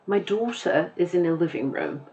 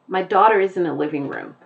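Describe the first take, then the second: First: Softer British take, daughter without final r; British accent. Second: Brisk American sentence, r sounded in daughter; American accent. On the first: Teacher compares musicality of two accents, British accent. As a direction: put on a light British accent. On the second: Teacher compares musicality of two accents, American accent. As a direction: say it in General American. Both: Shown as a demonstration. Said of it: "the way that I pronounced the words was different".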